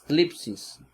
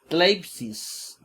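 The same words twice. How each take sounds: First: Tlipsis said briskly as one word, tlip-sis; spoken form. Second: Tleipsis, drawn out slowly as written, t-le-ip-sis; spelled-out form. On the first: Teacher giving the class the real pronunciation, plain. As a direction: give tlipsis its everyday pronunciation. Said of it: "es tleipsis". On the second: Teacher sounding out the written spelling for the class, slow. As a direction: read tleipsis letter by letter, slowly. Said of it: "que es tlipsis". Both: Shown as a demonstration.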